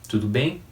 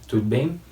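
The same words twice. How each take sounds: Both takes have the same delivery.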